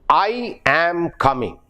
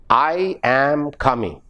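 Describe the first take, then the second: First: I am is said in full and strongly. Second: I am is said in full and strongly.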